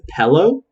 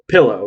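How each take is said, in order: First: The first vowel is an 'eh' sound. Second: The first vowel is an 'ih' sound. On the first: The speaker calls it wrong. "Some people pronounce it pillow, like P E L L O W" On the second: The speaker calls it right. "P- pillow, right?"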